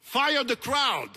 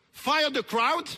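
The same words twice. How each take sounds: First: Slow, forceful "Fire the crowd" with a final fall; outraged statement. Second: Loud, rising "Fire the crowd?"; incredulous question. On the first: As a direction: FIRE THE CROWD loud, high and slow, falling at the end. Translates the fatwa as an order. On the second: Repeats it as outraged question. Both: Real, not acted.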